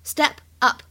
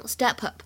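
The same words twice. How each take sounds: First: Said in the usual way. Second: "step up" run together as "ste-pup"; linked words. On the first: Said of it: "有一个连读的现象". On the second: Shown as a demonstration. Teacher shows learners linking, "step up" said as one word. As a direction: carry the P of "step" onto "up". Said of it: "有一个连读的现象，可以读成".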